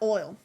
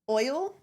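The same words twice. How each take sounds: First: It is said in a strong regional accent. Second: It is said in a general, everyday accent. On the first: This is how the speaker was born talking. "but like oil" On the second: This is how the speaker talks now. "the oil that I would say normally"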